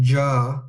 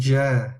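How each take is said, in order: First: The vowel sounds full, deep and heavy. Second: The vowel sounds thin, bright and light. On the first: The speaker calls it wrong. "we're not saying ja" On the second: The speaker calls it right. "we're saying ja, ja, if it's a light letter"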